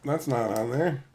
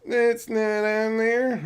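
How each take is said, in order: First: Said in the usual way. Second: Higher, drawn-out silly voice; silly repeat. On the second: Pretend. Streamer checking the list, silly high drawn-out repeat. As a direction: repeat it slow and high, goofing around.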